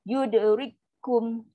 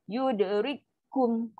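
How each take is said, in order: No difference in how they are said.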